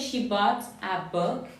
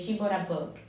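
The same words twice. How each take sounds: First: Bought and a are said as separate words. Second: Bought links into a with an r-like sound. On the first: "You could say" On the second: "you can link it and make a r sound"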